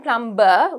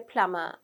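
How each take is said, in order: First: The B sound is clearly pronounced. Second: The B sound is silent. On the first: The speaker calls it wrong. "we don't say plumber" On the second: The speaker calls it right. "the B is quite silent there"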